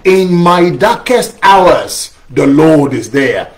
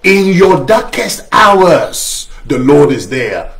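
First: Slow, weighty response line; slow call-and-response. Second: Slow, weighty title read, stress on darkest; slow sermon title. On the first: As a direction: lead the congregation slowly through the line. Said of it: "Can somebody say that with me?". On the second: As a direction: announce the sermon title slowly and gravely. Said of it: "sermon I've entitled". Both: Shown as a demonstration.

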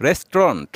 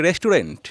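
First: রেস্টুরেন্ট squeezed to res-tront; রেস্টুরেন্ট with the middle vowel dropped; correct pronunciation. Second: রেস্টুরেন্ট with every syllable, res-tu-rent; রেস্টুরেন্ট said in full, the wrong way; wrong pronunciation. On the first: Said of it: "বলবো রেস্টুরেন্ট". (সঠিক উচ্চারণে রেস্ট্রন্ট) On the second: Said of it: "যেটাও ভুল উচ্চারণ". (ভুল উচ্চারণে রেস্-টু-রেন্ট) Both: Shown as a demonstration.

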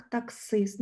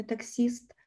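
First: Таксист with a hard И in the last syllable; correct hard И. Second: Таксіст with soft С and an І sound; wrong soft І. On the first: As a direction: say таксист slowly, with И rather than І. (таксист із чітким твердим И) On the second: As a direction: say таксіст with І instead of И. (таксіст з помилковим м'яким І) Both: Shown as a demonstration. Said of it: "не таксіст".

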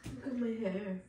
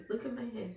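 First: Said in the usual way. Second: Laughing in disbelief; real wry laugh; rueful laugh. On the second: Real, not acted. Laughing at own hair.

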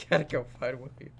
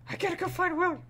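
First: Quiet. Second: Much higher, squeaky put-on voice; silly high voice. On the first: Pretend. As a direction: lower and softer, resigned. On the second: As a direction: squeak it out like a cartoon.

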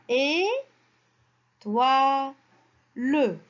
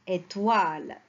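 First: "et, toi, le" as three held syllables with pauses; syllable-by-syllable reading. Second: Said in the usual way. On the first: Shown as a demonstration. Teacher draws a word from three syllables, "et, toi, le" spaced apart. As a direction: sound out "et, toi, le" piece by piece. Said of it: "on a trois syllabes". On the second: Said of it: "Le mot, c'est".

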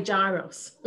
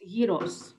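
First: Gyros said JAI-ros; American pronunciation. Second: Gyros said YEE-ros; Greek pronunciation. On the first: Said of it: "Or as the Americans say". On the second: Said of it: "or however you pronounce it". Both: Shown as a demonstration.

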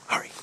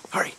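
No difference in how they are said.

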